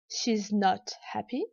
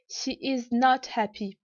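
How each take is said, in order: First: She and is merge into one syllable. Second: All words are said in full. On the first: "peut se dire" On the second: "la forme négative pleine"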